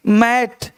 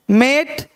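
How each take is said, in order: First: मैट with a wide "ae"; मैट with the open vowel. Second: मेट with a held "ay"; मेट with the closed vowel; long "ay" vowel. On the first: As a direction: say मैट as "mat". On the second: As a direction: say मेट as "mayt". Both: Shown as a demonstration. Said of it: "वहाँ ए और यहाँ ए".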